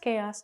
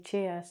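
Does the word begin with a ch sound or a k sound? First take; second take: k sound; ch sound. First: The word begins with a k sound. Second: The word begins with a ch sound. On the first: The speaker calls it right. "So it's K-os" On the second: The speaker calls it wrong. "why do they spell it with a C H? And I say chaos"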